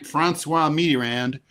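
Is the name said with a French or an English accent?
English. The name is said with English pronunciation. The speaker calls it right. "you just say"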